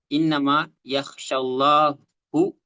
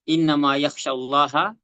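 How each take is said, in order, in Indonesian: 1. Kata untuk Allah diakhiri dengan vokal 'u'. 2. Kata untuk Allah diakhiri dengan vokal 'a'. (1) "kalau orang salah baca" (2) "ketika kita di sini bikin bacanya"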